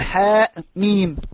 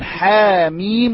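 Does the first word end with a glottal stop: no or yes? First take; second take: yes; no. First: The first word ends with a glottal stop. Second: The first word ends on the vowel, without a glottal stop. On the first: This is the form with the hamza. The speaker calls it wrong. "ولا نقول" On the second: This is the form used in the Quran, without the hamza. The speaker calls it right. "ونقول"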